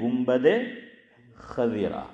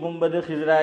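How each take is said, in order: First: The second word sounds like khazira, a vowel first. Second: The second word sounds like khizra, i vowel first. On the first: The speaker calls it right. "हालांकि ये सही लफ्ज़ है" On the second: The speaker calls it wrong. "इसको भी गुंबद खिज़रा"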